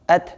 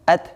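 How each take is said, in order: Both takes have the same delivery.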